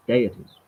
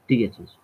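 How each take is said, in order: First: Deities said as "DAY-it-eez"; second pronunciation variant. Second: Deities said as "DEE-it-eez"; first pronunciation variant. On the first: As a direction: start deities with a "day" sound. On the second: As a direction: start Deities with a "dee" sound. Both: Shown as a demonstration. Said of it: "however you want to pronounce it".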